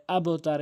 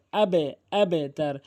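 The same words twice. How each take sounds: First: আবতার without the echo on বা; wrong pronunciation. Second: আবেতার with an echoing bounce on বা, slow; qalqala bounce. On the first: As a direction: say আবতার clipped, no bounce. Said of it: "এটি ভুল উচ্চারণ". (কলকলা ছাড়া ভুল উচ্চারণ) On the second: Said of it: "সঠিক উচ্চারণ হচ্ছে আবেতার". (কলকলা দিয়ে সঠিক উচ্চারণ) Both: Shown as a demonstration.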